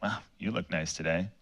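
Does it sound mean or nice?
mean. It sounds sarcastic and mean.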